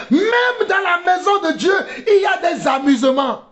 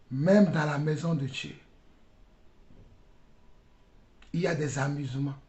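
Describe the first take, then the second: First: High, shouted rebuke; fiery preacher's shout; impassioned preaching. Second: Low, soft preacher's voice; quiet, grave repetition; hushed rebuke. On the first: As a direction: cry out in indignation from the pulpit. Rebuke shouted, later repeated softly. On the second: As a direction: drop right down after the shouting. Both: Real, not acted.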